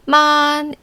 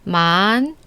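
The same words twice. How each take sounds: First: The pitch stays high, level and long. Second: The pitch curves upward from lower to higher. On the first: "일성은 이무진처럼 높고 평평하고 길게" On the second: "이성은 아래에서 위로 직선이 아니라 곡선을 타고 올라가는데"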